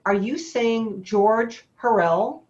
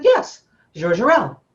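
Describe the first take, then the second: First: Slow, incredulous question, George Hurrell said with a hard j; stunned disbelief. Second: Yes, George Hurrell said slowly with a French zh in George, louder; the French agent confirming the name, in accent; imitating a French accent. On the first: Retold or imitated. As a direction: ask it slowly, not believing your ears. Disbelief at hearing the name. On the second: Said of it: "she was very heavy French accent".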